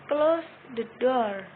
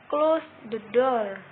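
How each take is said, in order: The two takes are said the same way.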